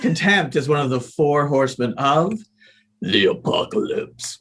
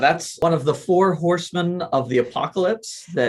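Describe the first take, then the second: First: It is said in a dramatic, intense way. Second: It is said in a casual, plain way.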